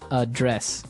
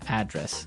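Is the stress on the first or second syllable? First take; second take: second; first. First: The stress is on the second syllable. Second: The stress is on the first syllable.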